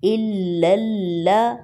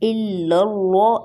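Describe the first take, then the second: First: The l in the first word sounds light. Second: The l in the first word sounds heavy. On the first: The speaker calls it right. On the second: The speaker calls it wrong.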